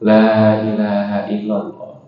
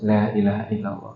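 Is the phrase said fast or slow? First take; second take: slow; fast. First: The phrase is said slowly and unhurriedly. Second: The phrase is rattled off quickly without a break. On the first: The speaker calls it right. "memberikan jeda, pelan-pelan" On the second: The speaker calls it wrong. "jangan kita ucapkan terus"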